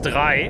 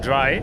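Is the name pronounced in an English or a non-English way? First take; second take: non-English; English. First: The name is pronounced in a non-English way. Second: The name is pronounced in an English way.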